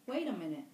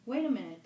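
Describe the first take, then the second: First: Said in the usual way. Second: Called out loud from the undergrowth; louder call. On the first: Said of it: "it said". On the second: A narrator's reading. Hidden fat boy calls after the fair boy, loud call. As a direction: raise it and call out. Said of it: "the voice said".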